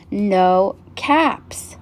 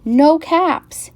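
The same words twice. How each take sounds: First: Drawn-out words at ordinary pitch; slow, deflated discovery. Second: High, louder exclamation of dismay; alarmed discovery. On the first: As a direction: let each word sink in slowly. Last fruitless look behind tree. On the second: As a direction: exclaim it, pitched well up. Looks for his missing caps. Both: A narrator's reading.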